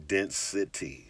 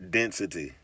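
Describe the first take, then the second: First: Density drawn out very slowly and quietly; lingering slow take of Density; said real slow. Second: Said in the usual way. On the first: Shown as a demonstration. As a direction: stretch Density out, slow and soft. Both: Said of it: "Say it real slow".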